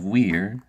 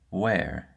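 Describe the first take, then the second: First: The vowel is a long E. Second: The vowel sounds like air. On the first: "instead of saying the long E sound" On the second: "a sound as if you were saying air"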